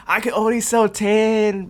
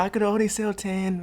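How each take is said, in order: First: Higher, slow, whiny mock apology; pitiful kid excuse. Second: Said in the usual way. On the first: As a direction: play the innocent kid, draw it out. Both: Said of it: "they be like".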